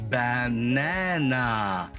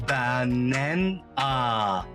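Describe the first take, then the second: Both takes have the same delivery.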